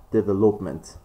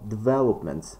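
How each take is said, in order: First: Development mis-stressed as deve-LOP-ment; development with a full, stressed LOP; stress on third syllable. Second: Development stressed as de-VEL-opment; development with the weight on its second syllable, VEL. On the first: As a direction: put the weight on LOP in development. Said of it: "we don't have development". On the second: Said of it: "This is the stress which is correct". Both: Shown as a demonstration.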